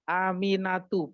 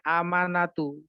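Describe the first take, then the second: First: The second vowel is an 'i' sound. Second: The second vowel is an 'a' sound. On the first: The speaker calls it right. "Jadi bacanya Aminatu" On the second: The speaker calls it wrong. "bukan Amanatu"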